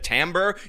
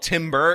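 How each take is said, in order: First: It does not sound like the shout timber. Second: It sounds like the tree-felling shout timber. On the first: The speaker calls it right. "instead of the timbre, you know, the word that he was actually looking for" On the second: The speaker calls it wrong. "like when you chop down a tree and yell timber"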